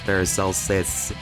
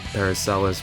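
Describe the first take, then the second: First: The name is said with the middle s sound. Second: The name is said without the middle s sound. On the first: The speaker calls it right. "the actual pronunciation is Paracelsus. With an S" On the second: The speaker calls it wrong. "it rolls off the tongue easier"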